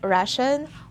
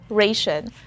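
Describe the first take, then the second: First: The first syllable sounds like 'ra'. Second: The first syllable sounds like 'ray'. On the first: "So it's either ra" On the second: "or ray. But I prefer the second one"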